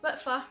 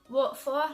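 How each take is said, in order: First: The word 'for' has a changed local vowel. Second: The word 'for' has its standard vowel. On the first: "I would say" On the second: "instead of saying"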